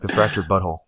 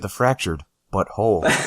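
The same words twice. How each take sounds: First: 'But' and 'whole' run together without a pause. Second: There is a pause between 'but' and 'whole'. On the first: The title is heard as a rude word. The speaker calls it wrong. "If you don't say it like that, it sounds like" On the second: The title is heard as two separate words. The speaker calls it right. "You have to say"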